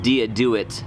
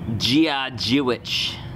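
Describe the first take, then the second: First: The greeting is said with an anglicized pronunciation. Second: The greeting is said with an Irish-style pronunciation. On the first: The speaker calls it wrong. "Turns out I've been butchering the Gaelic" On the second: The speaker calls it right. "the correct pronunciation"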